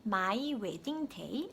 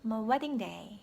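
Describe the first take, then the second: First: MY WEDDING DAY syllable by syllable, ma-i we-ding de-i; wrong pronunciation. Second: MY WEDDING DAY linked, MY reduced to ma; natural pronunciation. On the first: Teacher showing the mistake, choppy my wedding day. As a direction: rise stiffly through each syllable of MY WEDDING DAY. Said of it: "My wedding day 아니고". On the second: Teacher correcting learners, natural my wedding day. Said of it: "아니고 my wedding day". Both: Shown as a demonstration.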